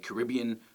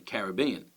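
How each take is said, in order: First: It has the American stress placement. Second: It has the Australian stress placement. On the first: "in America they tend to say" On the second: "in Australia we tend to say"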